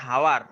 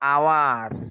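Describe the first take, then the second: First: The word begins with an audible h sound. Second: The word begins directly with a vowel sound. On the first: The speaker calls it wrong. "এমন বলিনি আমরা?" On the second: The speaker calls it right. "তাহলে প্রথমে সাউন্ডটা কি হচ্ছে? আ"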